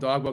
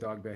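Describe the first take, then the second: First: The name ends with an 'oh' vowel. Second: The name ends with an 'ay' vowel. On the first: It is a teasing nickname. The speaker calls it wrong. "I call him Dogbo because the West way it's spelled" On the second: It is the real name. The speaker calls it right. "but it's really Dog Bay"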